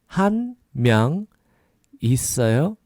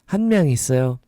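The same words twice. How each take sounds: First: The phrase is said slowly. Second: The phrase is said quickly.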